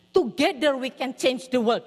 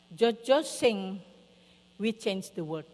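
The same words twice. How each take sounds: First: TOGETHER stressed, loud and slow; slow, louder full phrase starting hard on TOGETHER; emphatic correction. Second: Lightly voiced toddler, slow and halting; slow, simple child-talk, only lightly put on; small child. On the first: Retold or imitated. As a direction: correct the line firmly, leaning on TOGETHER. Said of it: "No, Jojo bilang". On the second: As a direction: imitate a little kid reporting, word by word. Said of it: "Kenapa, Zack?".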